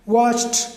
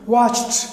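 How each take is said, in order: First: The ending is pronounced as a t sound. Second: The ending is pronounced as a t sound.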